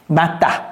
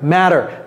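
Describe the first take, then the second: First: The word is said in a local, non-English way. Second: The word is said in standard English. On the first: The speaker calls it wrong. "Je n'ai pas dit mata" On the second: The speaker calls it right. "C'est matter"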